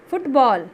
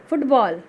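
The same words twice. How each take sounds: The two takes are said the same way.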